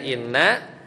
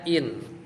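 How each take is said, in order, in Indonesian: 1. Bunyi n-nya dobel dan ditahan. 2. Bunyi n-nya tunggal dan pendek. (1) "Aslinya inna" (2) "dibaca in"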